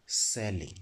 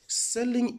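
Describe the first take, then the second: First: Low quiet term. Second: Selling pitched up high as a fresh start; high repeat. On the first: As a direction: drop the word low and soft, falling. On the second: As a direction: lift Selling high to open the explanation. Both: Shown as a demonstration. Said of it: "We also have the next term".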